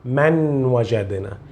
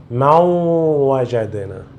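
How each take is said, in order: First: من وجدنا with a plain n sounded before the w; wrong, unmerged reading. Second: ما وجدنا with n melted into a nasal w; correct merged reading. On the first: Teacher shows the mistake to avoid, plain n in من وجدنا. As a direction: pronounce the n of من clearly, without nasal merging. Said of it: "então não diga". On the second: Teacher corrects the learner's reading, nasal merged ما وجدنا. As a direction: drop the n and glide nasally through ما وجدنا. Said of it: "você quer ler corretamente". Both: Shown as a demonstration.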